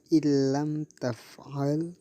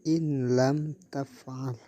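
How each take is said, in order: First: The n merges fully into the following l. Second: The n is pronounced separately before the l. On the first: The speaker calls it right. "dibaca illam taf'al" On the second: The speaker calls it wrong. "tidak boleh dibaca in lam taf'al"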